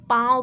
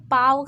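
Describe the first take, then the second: First: पाँव with the long आ through the nose; nasalised vowel. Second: पाव with a plain oral vowel; no nasal sound. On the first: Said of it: "इसे नाक से उच्चारित करना है". (पाँव का आ नाक से) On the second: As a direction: keep पाव out of the nose. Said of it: "सिर्फ नहीं बोलेंगे". (पाव, बिना नाक की आवाज़ के) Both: Shown as a demonstration.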